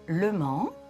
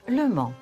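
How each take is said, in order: First: The pitch rises at the end. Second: The pitch falls at the end. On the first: "Une intonation montante" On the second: "une descendante"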